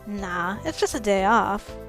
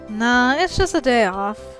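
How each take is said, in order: First: It is spoken in Donald's character voice. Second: It is spoken in another, intended character voice. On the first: The speaker calls it wrong. "I think I said that with Donald's voice" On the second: The speaker calls it right. "That's better"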